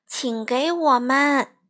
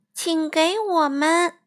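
First: Slow, careful 请给我们 with each word spelled out; polite please. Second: Slow, obedient echo of 请给我们, word by word; dutiful repeat. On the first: Mom slowly teaches the polite phrase 请给我们. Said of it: "应该说". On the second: Crow obediently repeats 请给我们 slowly after mom. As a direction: repeat 请给我们 like a good child. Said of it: "还算乖巧地重复了一遍". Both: Shown as a demonstration.

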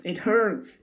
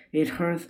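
First: The hurt peaks, voice jumps up; high pained wail; crying in pain. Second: Raised, pained cry; first cry of hurt, a little higher; pained whimper, pitched up. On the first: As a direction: cry of pain climbing much higher. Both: Acted. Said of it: "he cried".

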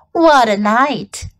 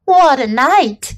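First: Slow husky rat voice. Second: Hoarse rat voice. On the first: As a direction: drag it out, husky and tired. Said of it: "he said in a husky voice". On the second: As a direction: rasp it out hoarsely. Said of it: "he repeated hoarsely". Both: Acted.

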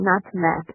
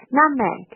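First: "nutmeg" with the t fully released; "nutmeg" split as nut-meg, crisp t; over-pronounced t. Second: "nutmeg" with the t swallowed; "nutmeg" said with a silent, held t; dropped t. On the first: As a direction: sound out the t in the middle of "nutmeg". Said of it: "你就不用读成nutmeg". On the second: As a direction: close "nut" without releasing t, straight into "meg". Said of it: "这个nut是不用读出来的". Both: Shown as a demonstration.

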